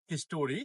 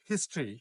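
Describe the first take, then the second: First: History as "হিস্টোরি", three syllables, his-TO-ree; common mispronunciation. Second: "হিস্ট্রি" in two syllables, HIS-tree; correct pronunciation. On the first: Teacher shows learners how "হিস্টোরি" is commonly said, mispronounced with a full o. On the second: Teacher models "হিস্ট্রি" for learners, correctly as HIS-tree. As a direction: drop the o in "হিস্ট্রি", running t into r. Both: Shown as a demonstration. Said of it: "সঠিক উচ্চারণ হবে".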